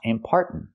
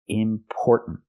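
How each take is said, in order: First: The first vowel sounds like the vowel in car. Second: The first vowel sounds like the vowel in store. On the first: The speaker calls it wrong. "Not are like car and far" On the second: The speaker calls it right. "but or like store and more"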